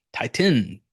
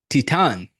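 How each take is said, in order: First: Titan said TIE-tin, the plain English way. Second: Titan said TEE-tahn, trying a French sound; French-style Titan. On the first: Host falls back to English: Titan as TIE-tin. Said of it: "I obviously do not have it". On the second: Host attempts the film's French title: Titan as TEE-tahn. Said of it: "French have such a sexy accent". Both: Shown as a demonstration.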